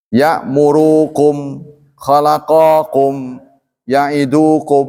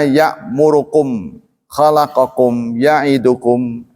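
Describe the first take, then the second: First: "Ya'murukum, khalaqakum, ya'idukum" slow, vowels drawn out; slow recitation. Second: "ya'murukum, khalaqakum, ya'idukum" with vowels too short; clipped short vowels. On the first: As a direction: recite each word slowly. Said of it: "dipanjang-panjangin". (dibaca pelan dan dipanjangkan) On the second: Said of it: "namanya ikhtilas". (vokal dipendekkan, ikhtilas) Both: Shown as a demonstration.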